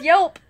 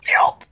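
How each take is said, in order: First: Loud laughing yelp, hiccup sound. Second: Sharp loud yelp of a hiccup. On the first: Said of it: "She says". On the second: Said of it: "That's her hiccup". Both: Retold or imitated.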